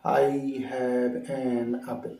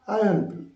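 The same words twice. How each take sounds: First: Very slow, drawn-out, word-by-word English. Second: Quick run-together English, higher and louder; fast native style. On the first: Shown as a demonstration. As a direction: stretch each word out separately. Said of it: "আমরা কীরকম বলি?". (একটা একটা শব্দ টেনে ধীরে) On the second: Retold or imitated. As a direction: rattle it off as one word. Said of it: "তারা কীরকম বলে?". (দ্রুত, শব্দ জুড়ে বলা)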